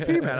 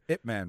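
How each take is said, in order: First: The first part is spelled out as letters. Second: The first part is said as one word. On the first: "I used to call him IP Man. I was like, Internet Protocol" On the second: "Did I say that right?"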